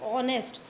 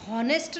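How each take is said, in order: First: The word begins directly with a vowel sound. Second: The word begins with an audible h sound. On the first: The speaker calls it right. "इसको हम बोलते ऑनेस्ट" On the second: The speaker calls it wrong. "अब हॉनेस्ट नहीं बोलते"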